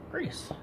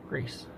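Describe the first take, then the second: First: High, hushed squeak on Grease; squeaky repeat. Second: Said in the usual way. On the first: Real, not acted.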